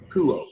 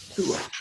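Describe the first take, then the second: First: Akuo as ah-KOO-oh, stress on the middle; model pronunciation. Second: Akuo again, much quieter, almost under the breath; quiet model of Akuo; soft repeat. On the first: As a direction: spell out Akuo slowly for the class. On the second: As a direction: echo Akuo softly. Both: Shown as a demonstration. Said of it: "that word is used in our language with acoustics".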